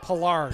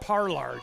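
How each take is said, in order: First: The first syllable has no R sound. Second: The first syllable has an R sound. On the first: This is how the family says the name. The speaker calls it right. "that first R must be silent then" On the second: This is how the announcer always said it. The speaker calls it wrong. "I've always said Parlarge"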